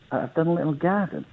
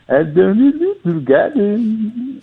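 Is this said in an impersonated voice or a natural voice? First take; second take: natural; impersonated. First: It is said in his own natural voice. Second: It is said in an impersonated singer's voice.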